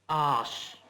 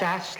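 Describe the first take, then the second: First: The vowel is long, like 'arse'. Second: The vowel is short, like 'ass'. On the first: The speaker calls it right. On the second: The speaker calls it wrong. "Not as"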